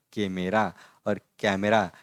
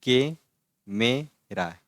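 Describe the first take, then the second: First: के मेरा with plain e, then कैमरा with an open a like cat; teacher sets के मेरा against कैमरा; contrast pronunciation. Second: के मेरा with a plain e vowel; teacher contrasts के मेरा with कैमरा; contrast pronunciation. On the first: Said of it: "इसमें फ़र्क है". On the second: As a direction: show के मेरा against कैमरा. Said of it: "तो हम कैसे लिखते?". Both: Shown as a demonstration.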